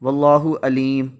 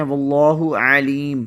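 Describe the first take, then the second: First: واللہ علیم with a plain vowel, no ع; alif instead of ain. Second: واللہ علیم with throat ع; ain in aleem. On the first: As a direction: say الیم with an alif where ع belongs. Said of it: "عین کی بجائے الف سے پڑھ لیں". (علیم کو عین کی بجائے الف سے پڑھیں) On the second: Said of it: "عین کی بجائے الف سے". (علیم کو عین کے ساتھ حلق سے پڑھیں) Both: Shown as a demonstration.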